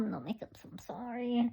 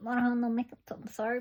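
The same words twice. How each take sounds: First: Whispered apology; whispering. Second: Said in the usual way. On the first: Real, not acted. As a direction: whisper it softly.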